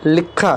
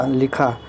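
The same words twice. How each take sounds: First: लिखा with a doubled kh, "likkha"; incorrect form. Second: Said in the usual way. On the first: Shown as a demonstration. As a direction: hold the kh long in लिखा. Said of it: "इधर हमारा अशुद्ध". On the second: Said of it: "इधर शुद्ध रूप है".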